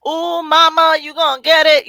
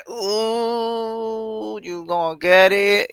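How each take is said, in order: First: Higher, louder sassy tease; loud playful singsong; louder sassy taunt. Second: Mock sassy singsong; playful taunting tone. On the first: Pretend. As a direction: really lean into the taunt. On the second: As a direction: tease them, sassy and slow. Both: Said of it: "That's me".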